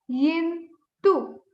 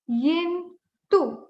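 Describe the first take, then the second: No difference in how they are said.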